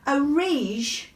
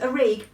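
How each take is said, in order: First: The last consonant is a soft J sound. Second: The last consonant is a hard G sound. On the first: This is the Jordanian way of saying the name. "the proper pronunciation in Jordanian" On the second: This is the Egyptian way of saying the name. "hard G, uh, is actually the Egyptian way of saying it"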